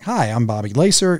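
It is said in a warm, friendly tone.

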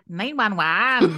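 It is said in a Glasgow accent.

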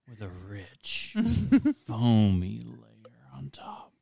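It is said in a put-on, affected voice.

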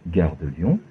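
The pitch rises at the end. "La première montante"

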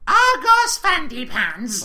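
It is said in a small child's voice.

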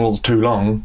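The word 'is' is contracted and unstressed. It asks which thing is too long. "Because you can ask, like"

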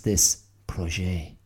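It is said with a French pronunciation.

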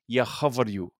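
The verb starts with a rural h sound.

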